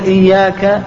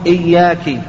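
First: The word ends with an 'a' vowel. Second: The word ends with an 'i' vowel. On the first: The speaker calls it right. "بدلا من أن يقول إياك" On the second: The speaker calls it wrong. "لحن لحنا يحيل المعنى"

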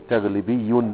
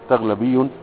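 First: The vowel after the l is i. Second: The vowel after the l is a. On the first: The speaker calls it wrong. "لو انت قلت ايه تغلبي فيها ثقل" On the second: The speaker calls it right. "هتفتح فتقول تغلبي"

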